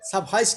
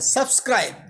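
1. মাঝের 'skr' যুক্তব্যঞ্জনের জায়গায় 'h' উচ্চারিত হয়। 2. মাঝের 'skr' যুক্তব্যঞ্জনটি স্পষ্টভাবে উচ্চারিত হয়। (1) "সাব হাইস না" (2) "সাবস্ক্রাইব বলেন"

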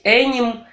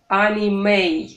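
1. Последняя гласная опускается и не произносится. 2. Последняя гласная произносится и растягивается. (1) "Не надо говорить аним" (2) "Мы как бы протягиваем последнюю гласную"

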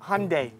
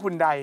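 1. ชื่อนี้ออกเสียงแบบอเมริกัน 2. ชื่อนี้ออกเสียงแบบไทย (1) "ที่อเมริกาเรียก" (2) "เรียกคุณใด"

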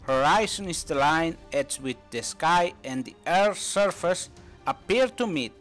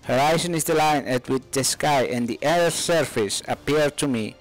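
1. La oración se dice lentamente. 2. La oración se dice a velocidad normal, más rápida. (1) "primero más lento para que puedas escucharlo" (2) "un poco más rápido para que te acostumbres a escucharlo a su velocidad normal"

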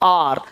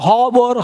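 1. शब्द सीधे एक स्वर ध्वनि से शुरू होता है। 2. शब्द एक सुनाई देने वाली h ध्वनि से शुरू होता है। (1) "हावर नहीं, आर" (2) "इसको हावर मत बोलो"

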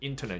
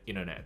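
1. 'ter' 部分完整发音。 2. 'ter' 部分简化成了 n。

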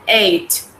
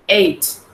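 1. La palabra termina con un sonido de t claro. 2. La palabra termina con un sonido de t claro.

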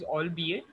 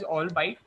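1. यह तीन अक्षरों की तरह बोला जाता है, 'all-bee-it'. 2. यह दो अक्षरों की तरह बोला जाता है, जैसे 'all bite'. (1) "the correct pronunciation is albeit" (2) "the word albeit was pronounced as all bite"

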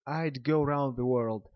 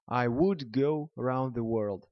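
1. «I would» сокращается до одного слога. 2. «I would» произносится как два полных слова.

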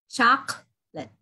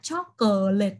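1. Từ này được đọc có hai âm tiết. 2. Từ này được đọc có ba âm tiết. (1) "Mình đọc có 20 tiết thôi" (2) "không phải là chocolate đâu"

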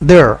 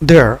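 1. 'they're' শব্দের শেষে একটি স্পষ্ট r ধ্বনি আছে। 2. 'they're' শব্দের শেষে একটি স্পষ্ট r ধ্বনি আছে।

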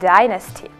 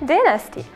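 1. Його вимовляють з американською вимовою. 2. Його вимовляють з британською вимовою. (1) "American English" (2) "British English"

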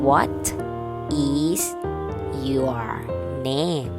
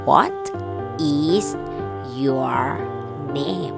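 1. คำว่า 'is' ออกเสียงเต็มและแยกต่างหาก 2. คำว่า 'is' ออกเสียงเต็มและแยกต่างหาก

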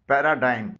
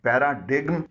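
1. यह शब्द बिना g की आवाज़ के खत्म होता है। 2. इस शब्द में m से पहले g की आवाज़ है।

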